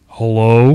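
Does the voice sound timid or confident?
confident. It sounds bold and aggressive.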